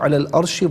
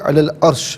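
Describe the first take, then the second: First: The word ends with an added 'i' vowel. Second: The word stops on the final 'sh' sound. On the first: The reading continues into the next words. "इस तरह पढ़ते हुए आगे की जानिब बढ़ेंगे" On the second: The reading pauses here. "यहाँ हम रुके"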